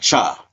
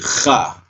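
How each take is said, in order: First: It starts with a plain ch sound. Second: It starts with a raspy throat sound. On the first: The speaker calls it wrong. "It's not cha" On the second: The speaker calls it right. "like you hocking up a loogie"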